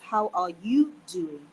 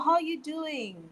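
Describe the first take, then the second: First: The word 'are' is clearly pronounced. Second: The word 'are' is dropped entirely. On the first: This is the full written sentence. "the sentence is how are you doing?" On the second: This is how native speakers casually say it. "it would be like, oh, how you doing?"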